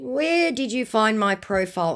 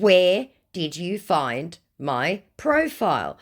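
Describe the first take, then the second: First: Higher, running questioning tone; challenging question. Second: Slow, word by word, higher pitch; pointed repetition. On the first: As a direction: quiz the suspicious stranger. First challenge to the scammer. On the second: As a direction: spell out the question for someone dim. Repeats the ignored question pointedly. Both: Retold or imitated.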